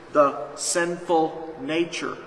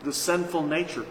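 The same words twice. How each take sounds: First: "The sinful nature" drawn out slow with weight on "sinful"; slow emphatic repeat. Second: Said in the usual way. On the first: Shown as a demonstration. Preacher repeating the answer for emphasis: slow. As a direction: stretch out "sinful" slowly. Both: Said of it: "Who's doing it?".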